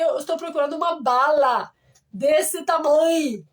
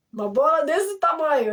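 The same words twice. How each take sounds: First: "bala" com a aberto no lugar de "bola"; wrong word bala. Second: "bola" com o aberto, bem claro; "bola", com ó aberto como em bola de futebol; bola said right. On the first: Retold or imitated. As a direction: diz "bala" com a, o erro antigo. (erro de pronúncia: "bala" em vez de "bola") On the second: Shown as a demonstration. (pronúncia correta de "bola") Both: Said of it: "eu falei errado".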